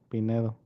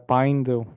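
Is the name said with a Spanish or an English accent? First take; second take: Spanish; English. First: The name is said with Spanish pronunciation. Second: The name is said with English pronunciation.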